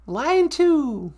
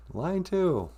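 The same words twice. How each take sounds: First: High, singsong call-out; high-voiced sidekick announcing. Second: Said in the usual way. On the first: Sidekick announcing a caller to host, high voice. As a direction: sing it out up high.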